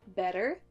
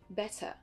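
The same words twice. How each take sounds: First: The middle t sounds like a soft d. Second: The middle t is a crisp t sound. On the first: "avec l'accent U S d'abord" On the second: "l'accent U K ensuite"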